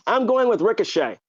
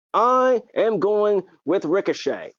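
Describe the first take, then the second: First: Said in the usual way. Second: "I am going with Ricochet" spoken slowly, each word stressed; slow, emphatic. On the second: Shown as a demonstration. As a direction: stretch out "I am going with Ricochet" deliberately.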